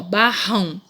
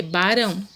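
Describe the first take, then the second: First: BARRÃO slow, with an h-like R; strong double R. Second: BARÃO with a light tongue-tap R; single tapped R. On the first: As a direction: slowly say "barrão" as "ba-hão". ("barrão" devagar, com R forte) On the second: ("barão" com R brando, de um toque só) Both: Shown as a demonstration. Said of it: "Se você tirar um R".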